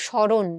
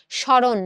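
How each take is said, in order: First: স্মরণ said as shãron with a nasal first vowel; correct pronunciation. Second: স্মরণ said as shoron with a plain o; the wrong স্মরণ, flat o; wrong pronunciation. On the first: Teacher giving the correct স্মরণ. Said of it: "তুমি বলো". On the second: Teacher giving the wrong স্মরণ. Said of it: "তুমি কখনো বলো না". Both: Shown as a demonstration.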